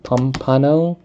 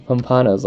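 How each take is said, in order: First: "pompano" tried with a Filipino pronunciation; attempted native pronunciation. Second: "pompano's" said the American way; Americanized pronunciation. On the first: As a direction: sound out "pompano" as a question, the Filipino way. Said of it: "Was it, like". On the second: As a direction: say "pompano's" with English vowels, in passing. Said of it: "I'm Americanizing the way you say it". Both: Shown as a demonstration.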